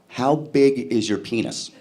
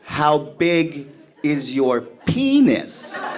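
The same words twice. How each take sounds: First: It is said at a normal speed. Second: It is said very slowly.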